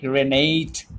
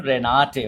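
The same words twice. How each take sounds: First: Renate said reh-NAYT, English style. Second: Renate said reh-NAH-teh, every syllable open; German way. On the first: Teacher showing the English way to read Renate. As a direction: Renate as one would in English. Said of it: "you can very much pronounce it like Renate". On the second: Teacher showing the German way to say Renate. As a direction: Renate with a clear final e. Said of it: "it will be pronounced as Renate". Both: Shown as a demonstration.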